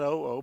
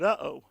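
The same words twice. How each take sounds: First: "oh, oh" said as two separate clipped "oh" sounds; "oh, oh" as two plain separate syllables; wrong way, "oh, oh". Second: "uh-oh" with a glottal break, "uh" then a falling "oh"; "uh-oh" as the classic oops sound, uh then oh; right way, "uh-oh". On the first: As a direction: say "oh, oh" as two flat ohs, as the wrong version. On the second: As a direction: say "uh-oh" like something just went wrong. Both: Shown as a demonstration. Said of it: "not oh, oh, but uh-oh".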